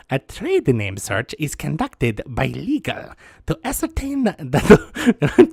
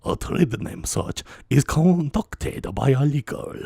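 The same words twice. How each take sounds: First: Doctor Doofenshmirtz. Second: Viceroy Nute Gunray. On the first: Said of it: "sounds like Doctor Doofenshmirtz". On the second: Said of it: "Viceroy Newt Gunray instead". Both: Acted.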